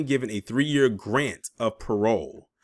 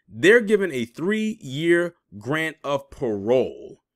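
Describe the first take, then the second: First: Said in the usual way. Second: "three-year grant of parole" spaced out word by word, very slow; emphatic repeat. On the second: Real, not acted. Commentator repeating the article's point to viewers, "three-year grant of parole" slow and emphatic.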